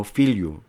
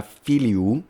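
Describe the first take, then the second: First: "filiu" glided into two syllables, fil-yu; teacher runs the i into a y glide in "filiu"; two-syllable vulgar form. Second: "filiu" said as three syllables, fi-li-u; teacher sounds out "filiu" with i and u apart; three-syllable Latin word. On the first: Teacher shows class the vulgar two-syllable "filiu". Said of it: "en el latín vulgar se pronunciaba como filiu". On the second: Teacher shows class the classical three-syllable "filiu". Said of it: "tenía tres sílabas en el latín clásico". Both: Shown as a demonstration.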